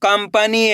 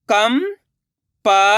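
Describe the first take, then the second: First: Said in the usual way. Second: कंपनी split slowly; syllable by syllable. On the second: Shown as a demonstration. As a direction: sound out कंपनी. (कंपनी को अक्षर-अक्षर बोलना) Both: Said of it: "अब आगे देखिए".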